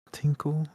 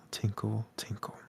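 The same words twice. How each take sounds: First: Said in the usual way. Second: "tinkle, tinkle" fading to a whisper; "tinkle" dropping to a faint breath and vanishing. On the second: A narrator's reading. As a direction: let the bell die away, whispering "tinkle". Bell sound fading away.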